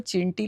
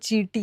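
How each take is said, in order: First: The first vowel is short and plain. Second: The first vowel is long and nasal. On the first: The speaker calls it wrong. "मी चिंटी-चिंटी म्हणत होते" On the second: The speaker calls it right. "Ma'am वो चींटी है"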